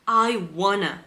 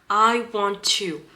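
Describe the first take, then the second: First: Want to is blended into one short reduced form. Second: Each word of want to is said fully.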